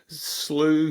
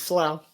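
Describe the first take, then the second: First: The vowel sounds like 'oo' in 'blue'. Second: The vowel sounds like 'ow' in 'plow'. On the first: The speaker calls it wrong. "I get called slew" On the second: The speaker calls it right. "but it's slough"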